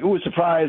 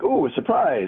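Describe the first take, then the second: First: It sounds wary and suspicious. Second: It sounds excited and pleased.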